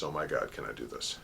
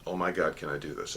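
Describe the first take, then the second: First: Much softer and lower, trailing away; a hushed, shrinking repeat of can I do this; fading anxious murmur. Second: Anxious self-doubt. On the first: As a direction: let the doubt sink into a murmur. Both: Retold or imitated.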